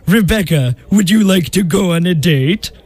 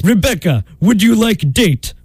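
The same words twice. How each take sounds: First: Put-on French accent. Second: Put-on Russian accent. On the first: Disguised suitor asking Rebecca out, French accent. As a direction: woo in a mock French accent. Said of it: "you had a French accent". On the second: Disguised suitor asking Rebecca out, Russian accent. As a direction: woo in a mock Russian accent. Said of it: "practiced his Russian accent".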